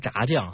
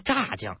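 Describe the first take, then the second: First: It is said the northern way. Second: It is said the southern way. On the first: The speaker calls it right. "人家北方人，咱都说炸酱" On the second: The speaker calls it wrong. "南方人他说炸酱"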